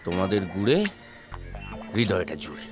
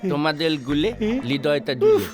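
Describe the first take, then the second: First: It is said in a plain adult voice. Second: It is said in a lisping baby-talk voice. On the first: An adult is speaking. The speaker calls it wrong. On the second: A baby is speaking. The speaker calls it right.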